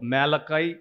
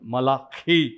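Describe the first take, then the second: First: The name is pronounced the English way. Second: The name is pronounced the Hebrew way, forcefully. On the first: "ఇంగ్లీష్లో మేలకాయ్ అని పిలుస్తాము" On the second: "హీబ్రూలో మలాఖీ మలాఖీ అని ఒత్తిపట్టి వారు పిలుస్తారు"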